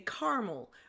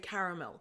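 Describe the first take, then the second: First: Caramel is said with an American pronunciation. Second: Caramel is said with a Canadian pronunciation. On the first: "Americans say caramel" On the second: "the lovely Canadians also say caramel"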